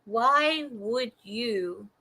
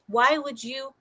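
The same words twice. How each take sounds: First: "why would you" stretched very slow and soft; slow drawn-out question. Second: Said in the usual way. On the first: Real, not acted. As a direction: draw out each word of "why would you" in disbelief. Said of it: "slowed retake". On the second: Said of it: "why would you (slow retake)".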